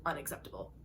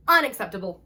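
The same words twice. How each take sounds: First: Breathless whisper, much softer; whispered, much lower and softer. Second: Louder, indignant declaration; loud, firm Unacceptable; emphatic. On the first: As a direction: let it barely escape. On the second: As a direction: say Unacceptable. with full force. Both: Shown as a demonstration.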